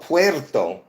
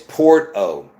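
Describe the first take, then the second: First: The first syllable sounds like 'pwer'. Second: The first syllable sounds like 'por'. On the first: This is how people assume it is said. The speaker calls it wrong. "You think it's called Puerto" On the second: This is how it is really said. The speaker calls it right. "really the pronunciation is Porto"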